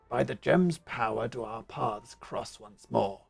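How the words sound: It is spoken in a big, gruff voice. The speaker calls it right. "Big burly beast man"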